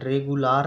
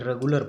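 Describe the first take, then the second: First: The last syllable has a long 'aa' vowel. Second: The last syllable has a short reduced vowel. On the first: The speaker calls it wrong. "आ की मात्रा से नहीं, रेगुलार नहीं पढ़ेंगे" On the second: The speaker calls it right. "छोटा की मात्रा से पढ़ेंगे"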